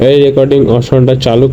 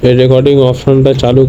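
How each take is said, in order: Both takes have the same delivery.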